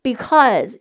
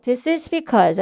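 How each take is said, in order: First: Because with the vowel between o and eo. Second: Said in the usual way. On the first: Shown as a demonstration. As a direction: open mouth for a, sound eo in because. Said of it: "어 발음도 아닌 오 발음도 아닌 중간 발음". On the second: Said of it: "아니고".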